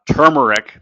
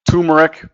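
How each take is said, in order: First: The first syllable is said with an R sound. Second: The first syllable is said without an R sound. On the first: The speaker calls it right. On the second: The speaker calls it wrong.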